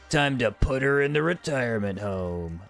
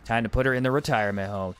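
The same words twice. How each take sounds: First: It is read like a dramatic action-movie line. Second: It is read in a plain, ordinary way. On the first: The speaker calls it right. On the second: The speaker calls it wrong.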